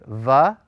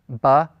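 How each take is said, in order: First: The first consonant lets air flow through. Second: The first consonant fully stops the airflow. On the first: "When they're soft, you force more air through your mouth" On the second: "By hard, it means that when you're pronouncing them, you will typically stop the flow of air"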